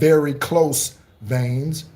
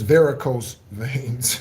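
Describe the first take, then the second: First: The first word sounds like 'very close'. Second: The first word sounds like 'varicose'. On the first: The speaker calls it wrong. "So many people mispronounce that like it's very close veins" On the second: The speaker calls it right. "It's varicose veins"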